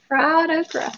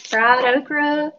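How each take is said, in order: First: Amused. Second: Slow, stretched fried okra; a playful slow savouring of fried okra; drawn out. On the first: Real, not acted. Repeating the words while amused. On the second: Pretend. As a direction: draw out okra like a Southern drawl.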